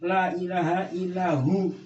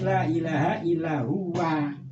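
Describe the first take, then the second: First: The last word is cut short to hu. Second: The last word is said in full as huwa. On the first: The speaker calls it wrong. "Jangan dibaca la ilaha illahu" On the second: The speaker calls it right. "Harus dibaca itu"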